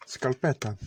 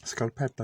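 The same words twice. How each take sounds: First: Scalpetta said with English vowels, skal-PET-uh; scalpetta, stress on PET, falling; Italian pronunciation. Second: Scalpetta with an Italian a, skahl-PET-tah; scalpetta, open Italian a sounds; Italian pronunciation. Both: Shown as a demonstration. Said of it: "as the Italians call".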